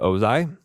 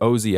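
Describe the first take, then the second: First: The name ends with an 'eye' sound. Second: The name ends with an 'ee' sound. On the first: The speaker calls it wrong. "I pronounced it Ozai" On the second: The speaker calls it right. "apparently is how you pronounce his name"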